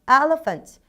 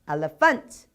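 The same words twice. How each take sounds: First: The stress is on the first syllable. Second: The stress is on the third syllable. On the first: The speaker calls it right. "첫 번째가 무조건 답이라고 생각하시면 돼요" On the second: The speaker calls it wrong. "뒤에 두 가지는 조금 뭔가가 이상한 듯 합니다"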